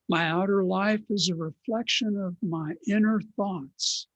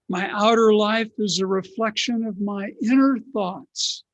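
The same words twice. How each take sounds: First: It is said at normal loudness. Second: It is said loudly.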